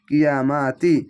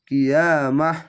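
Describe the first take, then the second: First: The word ends in a 'ti' sound. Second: The word ends in an 'h' sound. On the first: The reciter joins this word to the next. "আর যদি মিলিয়ে পড়ে তাহলে তাজ তি হবে" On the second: The reciter stops at this word. "তো জায়গায় থামতে হবে"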